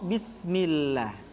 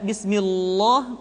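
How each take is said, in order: First: The L is pronounced light and thin. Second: The L is pronounced heavy and thick. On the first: The speaker calls it right. "maka lam kembali dibaca dengan tipis" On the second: The speaker calls it wrong. "tidak bismillah"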